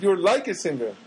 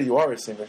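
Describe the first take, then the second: First: "like" leaned on to mark the hedge; stress on like. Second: Said in the usual way. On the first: Shown as a demonstration. Correcting what the cashier actually said, stressing "like". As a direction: tip the weight onto "like". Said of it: "She said". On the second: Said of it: "She didn't say".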